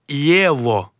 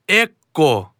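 First: The middle consonant is a v sound. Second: The middle consonant is a k sound. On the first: The speaker calls it right. "а єво" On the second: The speaker calls it wrong. "Не еко"

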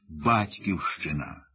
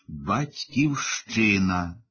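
First: The stress is on the first syllable. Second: The stress is on the second-to-last syllable. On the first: A place of birth or origin. "наголошувати на першому складі" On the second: The country whose citizens people are. "на передостанньому складі"

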